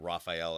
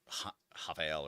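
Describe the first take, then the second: First: The name starts with an English R sound. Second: The name starts with an H-like sound. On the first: "I'm not saying Raphael" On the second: "my Brazilian friends like do not pronounce the the R the same way"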